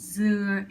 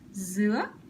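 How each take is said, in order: First: The pitch falls on the word. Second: The pitch rises on the word. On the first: The word means coconut. "it's falling tone" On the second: The word means pineapple. "It's a raising tone"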